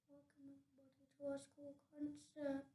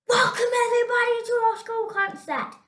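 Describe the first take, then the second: First: It is said quietly. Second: It is said very loudly.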